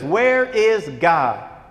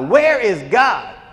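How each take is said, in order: First: The question is said at normal volume. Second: The question is said noticeably louder.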